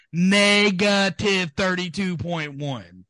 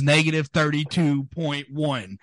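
First: "Negative thirty-two point one" slow and high, "Negative" stretched out; "Negative" drawn out high, falling at "one"; drawn-out emphasis. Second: Negative thirty-two point one said at normal pace, pitch raised; "negative thirty-two point one" run together, keyed up; excited reveal. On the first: Repeats the damning number for emphasis. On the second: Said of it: "I'm getting excited". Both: Real, not acted.

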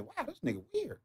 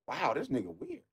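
First: Higher and much softer, almost breathed; high soft aside. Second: Much softer, under the breath; muttered aside. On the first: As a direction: breathe it out in mock disbelief. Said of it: "That's all I can say is". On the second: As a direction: mutter it to yourself, unimpressed. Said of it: "I'm like". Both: Retold or imitated.

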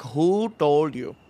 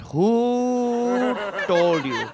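First: Slow, suspicious mock-mom question; pissed mom. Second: Very drawn-out, higher "Who", hammed-up outrage; pissed mom. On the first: Mom interrogates child about the sprinklers, mock pissed. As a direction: stretch "Who" a little, accusingly. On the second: Mom demands the culprit's name, exaggerated pissed. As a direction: hold "Who" long and high, accusingly. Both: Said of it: "she just lands at a sidewalk pissed".

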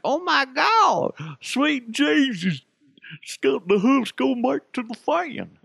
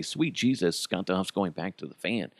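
First: High, slow, hammed-up shocked voice; mock gasping fan. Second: Said in the usual way. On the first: Host mocking fans stunned by rumours, high hammed-up gasp. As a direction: gasp it out in a silly high falsetto. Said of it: "it's just funnier unless I say". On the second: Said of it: "it's just not as funny".

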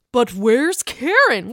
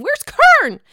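First: Slowly wondering where she is; drawn-out question. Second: Loud, high-pitched mock search; high calling out. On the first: Acted. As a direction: stretch out WHERE'S KAREN as a question. Mock search, first take. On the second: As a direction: call out KAREN high and loud. Mock search, escalated second take.

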